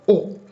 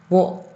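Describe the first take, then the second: First: It is a bare o vowel. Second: It begins with a w sound. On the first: "ele acaba soando mais como só o o" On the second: "a partícula wo"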